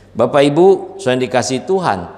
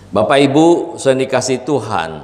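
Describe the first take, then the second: No difference in how they are said.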